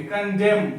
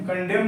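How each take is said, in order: First: "कंडेम" ending cleanly on M; silent N. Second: "कंडेम" with an N sounded after the M; wrong pronunciation. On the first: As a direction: model "कंडेम" with no final N. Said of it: "यहाँ पर क्या बोलेंगे?". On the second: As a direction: show the mistake, "कंडेम" ending in M-N. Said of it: "कंडेम नहीं बोलेंगे". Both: Shown as a demonstration.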